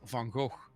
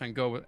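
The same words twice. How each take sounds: First: The name is said with Dutch sounds. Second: The name is said with anglicized sounds. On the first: This is how it is said in its own language. The speaker calls it right. "Stephen Fry said no, it's Van Gogh" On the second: This is how most people commonly say it. The speaker calls it wrong. "everyone said Van Gogh"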